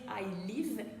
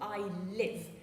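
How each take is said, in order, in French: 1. La voyelle dans live est un 'i' français tendu. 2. La voyelle dans live est entre 'é' et 'i'. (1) "On ne va pas dire" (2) "mais plutôt ... à cheval entre le E, accent aigu du mot épée, et le I du mot ri"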